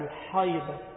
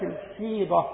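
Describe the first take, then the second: First: The first vowel is an open 'a' sound. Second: The first vowel is an 'i' sound. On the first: "وجوز القاضي عياض رحمه الله وغيره الفتح يعني الحيضة" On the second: "قال الخطبي بكسر الحاء"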